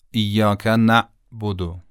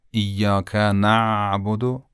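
First: "نعبد" chopped by a glottal stop after نَ; wrong hamza. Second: "نعبد" with a long, soft ayn after نَ; correct soft ayn. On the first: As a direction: catch and cut the sound inside "نعبد". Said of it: "این غلطه". («نعبد» با همزه به جای عین، صدا قطع) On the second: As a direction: stretch the throat sound in "نعبد" without a break. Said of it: "این صحیح و درسته". («نعبد» با عین نرم و کشیده) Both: Shown as a demonstration.

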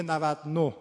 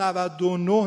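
First: نود و نه as navad-noh; no linking vowel. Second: نود و نه as navad-o-noh; full linking vowel. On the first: Teacher showing the operator's form, نود و نه without linking o. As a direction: drop the o between نود and نه. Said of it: "نمیگه نود و نه". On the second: Teacher showing the standard form, نود و نه with linking o. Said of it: "بازم نود و نه نمیگه نود و نه". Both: Shown as a demonstration.

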